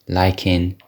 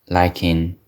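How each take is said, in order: The two takes are said the same way.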